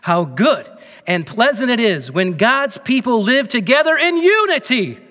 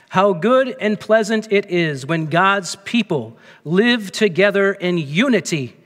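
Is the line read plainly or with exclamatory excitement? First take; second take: excitedly; plainly. First: It is read with exclamatory, lively emphasis. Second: It is read in a plain, even way.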